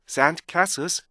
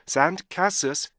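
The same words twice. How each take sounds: No difference in how they are said.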